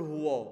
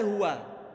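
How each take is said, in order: First: The waw sound is thick and heavy. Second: The waw sound is thin and light. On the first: The speaker calls it wrong. "maka nanti huruf wawunya kebaca tebal. Kalau nggak hati-hati akan dibaca begini" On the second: The speaker calls it right. "Padahal huwa"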